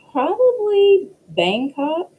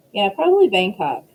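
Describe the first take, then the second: First: BANGKOK drawn out slowly, rising like a question; tentative answer. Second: BANGKOK falling at the end, decided; settled answer. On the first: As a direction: try out "probably Bangkok" high and slow, ending upward. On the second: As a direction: confirm "probably Bangkok" with a closing fall. Confirms the answer after pause. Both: Real, not acted.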